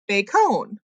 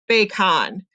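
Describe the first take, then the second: First: The second syllable has another full vowel. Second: The second syllable has a full 'ah' vowel. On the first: "change your vowel sound" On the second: "this should be a short vowel O. It should say ah"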